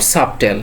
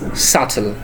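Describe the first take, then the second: First: The B sound is pronounced. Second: The B sound is silent. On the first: The speaker calls it wrong. "not subtle" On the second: The speaker calls it right. "This is subtle"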